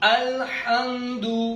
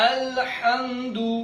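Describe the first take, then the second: Both takes have the same delivery.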